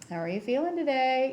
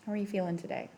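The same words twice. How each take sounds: First: The question sounds hopeful and expects a good answer. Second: The question sounds doubtful and expects a bad answer. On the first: The asker expects the treatment has worked. "Or I could say to Natalie" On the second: The asker expects the treatment has not worked. "I could say to Georgia"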